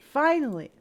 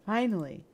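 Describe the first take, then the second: First: Higher, louder Finally; elated Finally. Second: Said in the usual way. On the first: Acted. Yuri alone with the player at last, a higher, louder Finally. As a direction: let the relief burst out.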